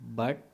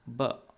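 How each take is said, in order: First: The final t is fully pronounced, neutral accent. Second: The final t is a glottal stop, British accent.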